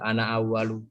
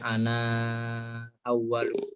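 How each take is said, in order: First: The final vowel of ana is short. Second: The final vowel of ana is drawn out. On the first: "kalau hafaz kan pendek ya" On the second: "Kalau misalnya waras nanti bacanya"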